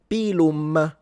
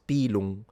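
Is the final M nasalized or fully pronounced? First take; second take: pronounced; nasalized. First: The final M is fully closed and pronounced. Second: The final M is nasalized, not closed. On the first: This is the modern Italian pronunciation. "where I would say naturally" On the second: This is the classical Roman pronunciation. "the M is fully nasalized"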